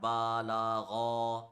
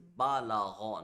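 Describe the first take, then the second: First: Each syllable is drawn out long. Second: Each syllable is kept short. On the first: The speaker calls it wrong. "not Ba La Gha" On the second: The speaker calls it right. "It is Ba La Gha"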